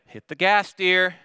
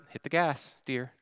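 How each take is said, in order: First: Firmer, higher-pitched urging; raised voice, a bit more insistent; slightly ramped up. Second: Soft, controlled instruction; gently understated urging; calm. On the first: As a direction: push it a little harder, still controlled. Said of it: "So I ramp up my response just a little bit". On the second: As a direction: keep it quiet and composed. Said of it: "so I calmly say to her". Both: Retold or imitated.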